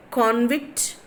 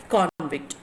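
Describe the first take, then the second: First: "convict" as con-VICT, ending on a rise; slow "convict" weighted on VICT; stress on second syllable. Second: "convict" as CON-vict, slow and falling; slow "convict" weighted on CON; stress on first syllable. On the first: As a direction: offer "convict" slowly as con-VICT, left rising. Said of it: "which of the following is the correct stressed syllable". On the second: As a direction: give "convict" as CON-vict, closing downwards. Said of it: "is in the first syllable". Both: Shown as a demonstration.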